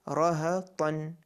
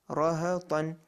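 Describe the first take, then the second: No difference in how they are said.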